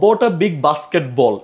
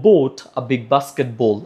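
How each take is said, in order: First: The first word has a short 'bot' vowel. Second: The first word has a long 'boat' vowel. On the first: The speaker calls it wrong. "এইভাবে না পড়ে" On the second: The speaker calls it right. "আমরা পড়বো হচ্ছে বোট"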